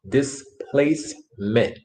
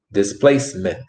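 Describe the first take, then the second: First: "Displacement" slowly as dis, place, ment, with gaps; syllable by syllable. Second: Said in the usual way. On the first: Shown as a demonstration. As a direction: break "Displacement" into three separate syllables. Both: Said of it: "That word is pronounced".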